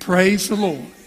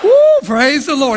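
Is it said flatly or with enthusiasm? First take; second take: flatly; enthusiasm. First: It is said plainly, without much feeling. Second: It is said with strong, heartfelt enthusiasm.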